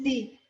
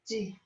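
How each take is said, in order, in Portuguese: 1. A sílaba é dita forte e seca. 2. A sílaba é dita suave e leve. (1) "No es di" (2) "es de, de. Suavecito"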